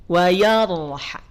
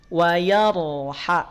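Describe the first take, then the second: Both takes have the same delivery.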